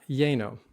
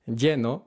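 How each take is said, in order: First: Lleno with the e gliding to ay; wrong anglicized lleno. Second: Lleno with a pure e, no ay; correct Spanish lleno. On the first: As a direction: lleno said like "yay-no". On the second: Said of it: "not lleno". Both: Shown as a demonstration.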